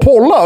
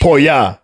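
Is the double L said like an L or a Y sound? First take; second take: L sound; Y sound. First: The double L is said as an L sound. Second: The double L is said as a Y sound. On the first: The speaker calls it wrong. "så då har man sagt, åh, polla" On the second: The speaker calls it right. "if you have two L's, you say pojo. You say it with ji"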